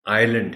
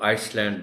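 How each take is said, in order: First: No s sound is pronounced in the middle. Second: An s sound is pronounced in the middle. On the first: The speaker calls it right. "एस इसमें silent है" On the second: The speaker calls it wrong. "आइसलैंड नहीं बोलना"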